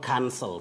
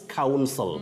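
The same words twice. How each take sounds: First: The first vowel is a plain 'a' sound. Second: The first vowel glides like in 'cow'. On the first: To call something off. The speaker calls it wrong. "not counsel" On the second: A lawyer who gives legal advice. The speaker calls it right. "There is that glide, ... call the diphthong. ... Cow. Counsel. Defense counsel"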